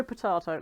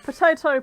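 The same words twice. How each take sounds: First: Potato with the ah sound, lower; potahto. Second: Potato with the ay sound, higher and louder; potayto. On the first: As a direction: say potato as pot-AH-to. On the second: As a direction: say potato as pot-AY-to. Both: Shown as a demonstration.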